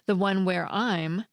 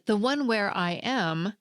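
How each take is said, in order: First: The word 'am' has no vowel. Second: The word 'am' has a full vowel. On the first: "there's no vowel at all" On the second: "with strong forms are and am"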